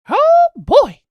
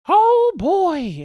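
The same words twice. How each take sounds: First: The pitch sways up and down throughout. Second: The pitch does not sway up and down. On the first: The speaker calls it right. "a weird kind of sway up and down that you have to do like just right" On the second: The speaker calls it wrong. "people that do the impression wrong"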